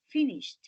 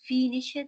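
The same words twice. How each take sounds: First: The ending is said as a t. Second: The ending is not said as a t. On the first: The speaker calls it right. "No, it's finished" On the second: The speaker calls it wrong. "you are not going to pronounce finished"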